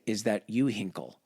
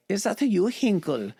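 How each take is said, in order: First: Said in the usual way. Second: Much higher, mock German soldier accent; high, hammed-up German accent question. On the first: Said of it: "But in German". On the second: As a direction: squeak it out like a startled German soldier. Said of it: "But in German, he's like".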